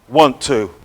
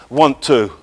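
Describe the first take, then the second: No difference in how they are said.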